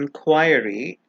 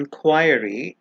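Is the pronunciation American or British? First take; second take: British; British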